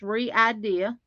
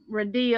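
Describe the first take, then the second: First: The name is said as 're-idea'. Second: The name is said as 'radia'. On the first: The speaker calls it right. "Now you pronounce that re-idea" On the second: The speaker calls it wrong. "not Radia or anything like that"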